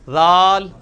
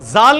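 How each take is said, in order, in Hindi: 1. पहला व्यंजन नरम th जैसी आवाज़ है। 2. पहला व्यंजन सख़्त, गूँजती हुई z जैसी आवाज़ है। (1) "इसको नरमी से निकालना है" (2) "जाल नहीं होगा ये, वो जा वो दूसरे वाला है जो आपने सख्ती के साथ निकालना है"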